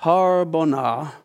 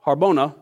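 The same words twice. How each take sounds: First: Harbona sounded out slowly, syllable by syllable with a rising end; struggling pronunciation. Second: Said in the usual way. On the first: Shown as a demonstration. A preacher stumbles over the name Harbona, slow and unsure. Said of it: "phew, Harbona, that's close enough". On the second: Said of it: "that's close enough".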